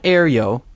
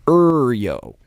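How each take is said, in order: First: The first syllable sounds like 'air'. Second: The first syllable sounds like 'ur'. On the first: The speaker calls it wrong. "not Aeryo" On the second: The speaker calls it right.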